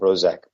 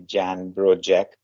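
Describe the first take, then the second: First: The surname's last syllable starts with a z-like sound. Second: The surname's last syllable starts with a j-like sound. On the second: "the not, not so good pronunciation would be"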